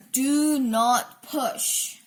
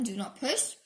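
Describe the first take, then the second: First: "Do Not Push" very slow, word by word; emphatic label reading. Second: Said in the usual way. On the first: A narrator's reading. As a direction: space out "Do", "Not", "Push" deliberately.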